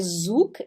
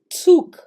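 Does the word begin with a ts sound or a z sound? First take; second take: z; ts. First: The word begins with a buzzing z sound. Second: The word begins with a sharp ts sound. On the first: The speaker calls it wrong. "Ele não é zuk" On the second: The speaker calls it right. "ele é tsuk"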